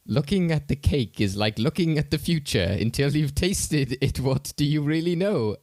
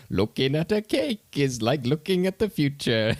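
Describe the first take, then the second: First: Quoting a film line. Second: Higher, slow, dreamy mock-profound line; quoting a film line. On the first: Retold or imitated. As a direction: deliver it like a portentous film character, pitched up. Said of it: "one of my favorite lines was". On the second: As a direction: hold each word like a spaced-out oracle, pitched up. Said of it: "And he's just there like".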